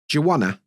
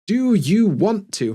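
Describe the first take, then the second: First: Want to is reduced to wanna. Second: Want to is said as two full words. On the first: "becomes do you wanna" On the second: "instead of"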